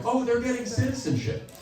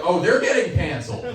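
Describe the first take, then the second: First: High, light, pleased remark; note it approvingly, pitched well up; easy high-voiced acceptance; mild approving reaction. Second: Raised, punchy warning; emphatic mock alarm; knowing alarm. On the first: Approving reaction, set against canceled. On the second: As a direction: call out the coming trouble, higher and firmer. Alarmed reaction, set against citizenship.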